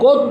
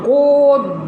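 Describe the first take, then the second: First: The d sound is said once, not doubled. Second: The d sound is doubled and held longer. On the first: The speaker calls it wrong. "এই জন্যে গদ্য না" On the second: The speaker calls it right. "মানে দটা দুইবার হয়েছে"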